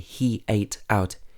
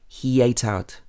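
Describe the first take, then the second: First: The words are said separately without a linking sound. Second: A y sound links he to ate. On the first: The speaker calls it wrong. "We don't say he ate out" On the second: The speaker calls it right. "this sounds a bit like yate"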